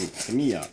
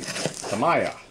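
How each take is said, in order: First: The middle syllable sounds like 'mee'. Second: The middle syllable sounds like 'may'. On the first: The speaker calls it right. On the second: The speaker calls it wrong.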